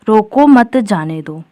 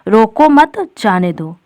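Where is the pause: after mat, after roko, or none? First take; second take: none; after mat. First: It is said with no pause inside. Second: It has a pause right after mat. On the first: The meaning is unclear. "अब ये वाला वाक्य बोलने पर कुछ अर्थ स्पष्ट हो रहा है? नहीं" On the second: Do not stop the person; let them go. "यानी जो व्यक्ति है उसे रोको नहीं, जाने दो"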